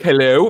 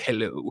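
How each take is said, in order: First: It is said in a normal, healthy voice. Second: It is said in a weak, pained voice.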